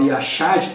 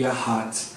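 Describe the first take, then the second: First: The middle consonant is a 'sh' sound. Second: The middle consonant is a throaty, r-like sound. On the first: The speaker calls it wrong. "a segunda palavra que a gente falava Yashad" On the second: The speaker calls it right. "o H vira um, um R ali"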